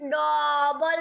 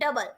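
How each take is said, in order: First: An O vowel sound is pronounced in the word. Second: No O vowel sound is pronounced in the word. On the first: The speaker calls it wrong. "આપણે ઓ નો pronunciation ડબલ નથી બોલતા" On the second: The speaker calls it right. "આપણે ડબલ"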